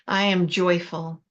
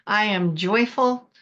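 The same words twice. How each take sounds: First: It is said in a calm, ordinary voice. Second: It is said loudly with lots of energy. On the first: "Say it with me" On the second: "Really let it fly this time"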